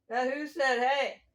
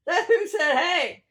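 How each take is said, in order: First: Said in the usual way. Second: High, loud playful call; hammed-up loud "Hey". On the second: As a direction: call it out louder and higher, like a Who wanting to be heard. Repeats the Who calling out louder.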